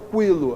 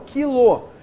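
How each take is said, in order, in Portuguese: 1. O u depois do k é pronunciado. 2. O u depois do k é mudo. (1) "Mas eu não falo quilo" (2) "Não, eu falo quilo"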